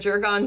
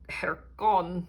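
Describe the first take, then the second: First: It begins with a J sound. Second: It begins with a breathy H sound. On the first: "which I know I'm saying wrong" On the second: "I want to pronounce it like Spanish wise and like hair"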